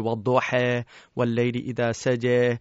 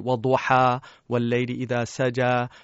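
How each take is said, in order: First: The phrase is recited in the Warsh reading tradition. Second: The phrase is recited in the Hafs reading tradition. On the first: "I learned Warsh, which is a West African recitation. We say" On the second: "And in Hafs, which is the more common in the Middle East, they would say"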